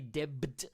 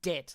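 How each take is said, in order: First: A B sound is heard before the final T. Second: No B sound is heard before the final T. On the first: The speaker calls it wrong. "You don't say debt. No" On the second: The speaker calls it right. "The B is silent"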